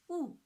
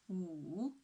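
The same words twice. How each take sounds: First: The pitch falls sharply from high to low. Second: The pitch dips low, then rises again. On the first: "the fourth tone" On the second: "the third tone, from two to one to four"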